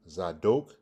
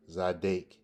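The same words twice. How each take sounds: First: Zadok with long O, rising at the end; O sound. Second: Zadek with long A; A sound. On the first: Teacher contrasts the two verb forms, Zadok with O sound. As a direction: say Zadok as za-DOKE, lifting the end. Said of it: "you have a O sound". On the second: Teacher contrasts the two verb forms, Zadek with A sound. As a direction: say Zadek as za-DAKE. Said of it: "A sound". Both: Shown as a demonstration.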